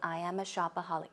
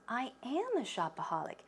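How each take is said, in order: First: The stress is on "shopaholic", not "am". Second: The stress is on the word "am".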